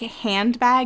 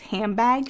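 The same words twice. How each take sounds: First: The nasal before bag is an n sound. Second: The nasal before bag is an m sound.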